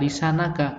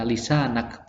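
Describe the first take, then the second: First: The word ends with a final vowel sound. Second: The word ends on a bare consonant. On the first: The word is read as if the phrase continues. "kenapa kok gak baca lisanaka?" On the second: The reading stops at the end of the phrase. "ketika akhir dari bacaan itu diwakafkan, maka dibaca sukun"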